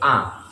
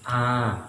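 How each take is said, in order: First: The vowel is held for one short beat. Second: The vowel is held for two beats. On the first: "Satu harokat itu A, itu satu"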